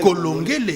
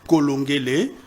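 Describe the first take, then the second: First: The name ends on a consonant sound. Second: The name ends on a vowel sound. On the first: The speaker calls it wrong. "en congolais, ça n'existe pas" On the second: The speaker calls it right. "C'est comme ça que ça se prononce"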